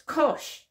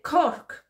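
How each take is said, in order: First: The word ends with a soft sh sound. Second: The word ends with a hard k sound. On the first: The speaker calls it right. "and it's kosh" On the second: The speaker calls it wrong. "I said koch by mistake"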